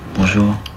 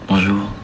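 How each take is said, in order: First: It is said warmly without a smile. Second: It is said with a big smile.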